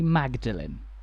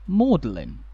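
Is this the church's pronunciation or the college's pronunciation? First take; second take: church's; college's. First: It is said the way the church's name is. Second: It is said the way the college's name is. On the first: This was the usual form in the earlier period. "the pronunciation when the church was built was generally Magdalen" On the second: This was the usual form centuries later. "the common pronunciation had become Magdalen"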